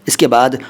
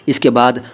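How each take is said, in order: No difference in how they are said.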